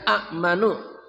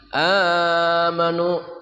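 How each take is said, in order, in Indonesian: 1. Hamzah (glottal stop) mengikuti vokal pertama yang pendek. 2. Vokal pertama dipanjangkan tanpa hamzah. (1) "Asalnya amanu" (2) "dirubah amanu hamzah yang mati menjadi panjang"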